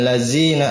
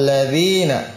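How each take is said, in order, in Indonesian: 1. Huruf tengahnya adalah bunyi z. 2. Huruf tengahnya adalah bunyi th yang bersuara. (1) "jangan lazina" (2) "Dza ujung lidah kena ujung gigi seri atas"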